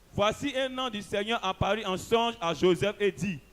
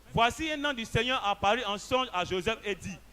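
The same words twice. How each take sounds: The two takes are said the same way.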